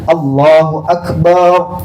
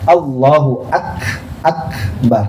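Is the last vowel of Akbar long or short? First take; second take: long; short. First: The last vowel of Akbar is drawn out. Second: The last vowel of Akbar is short. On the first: It means Allah is a drum. The speaker calls it wrong. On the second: It means Allah is the greatest. The speaker calls it right.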